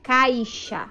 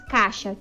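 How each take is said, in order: First: The first vowel glides from 'a' to 'i'. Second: The first vowel is a plain 'a' sound. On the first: The speaker calls it right. "a maneira correta de pronunciar é caixa, com a vogal i" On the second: The speaker calls it wrong. "muitas vezes nós falamos caixa, tirando a vogal i"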